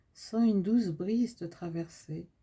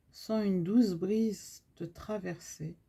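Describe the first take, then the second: The two takes are said the same way.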